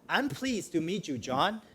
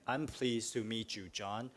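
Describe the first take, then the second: First: It is said warmly, with real feeling. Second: It is said flatly, with no feeling. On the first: The speaker sincerely means the words. The speaker calls it right. "you want to say it like you mean it" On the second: The words are being recited without meaning them. The speaker calls it wrong. "So you don't recite it. ... there's no feeling"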